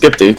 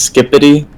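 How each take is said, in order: First: No vowel is said between 'skip' and 'ty'. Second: An extra vowel is said between 'skip' and 'ty'. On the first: The speaker calls it right. "there's no like I in between" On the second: The speaker calls it wrong. "some people like pronounce it as Skippity"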